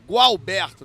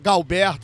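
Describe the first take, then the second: First: The name begins with a GW sound. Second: The name begins with a plain G sound. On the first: The speaker calls it right. "aí é Gualberto, tem essa entonação" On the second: The speaker calls it wrong. "às vezes eu falo Galberto"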